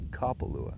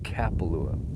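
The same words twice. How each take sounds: First: The name is said with a local Hawaiian pronunciation. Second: The name is said with an anglicized pronunciation. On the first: The speaker has lived here a while. The speaker calls it right. "It's Kapalua" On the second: The speaker is new to the area. The speaker calls it wrong. "It's not Kapalua"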